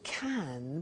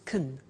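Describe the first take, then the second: First: The word has a full, clear vowel. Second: The word has a weak, reduced vowel. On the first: "notice the pronunciation of can becomes" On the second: "can becomes can when we speak"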